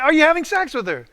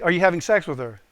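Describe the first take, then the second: First: Much higher, louder demand; raised-voice interrogation; insistent repeat. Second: Firm, slightly raised questioning; direct, louder inquiry; pointed question. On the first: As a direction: re-enact hammering the question home. Asks again after he stares. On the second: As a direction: press him for an answer, retold. First asking, retold interrogation. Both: Retold or imitated.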